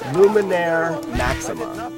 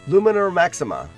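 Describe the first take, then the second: First: The name is said more slowly. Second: The name is said very quickly.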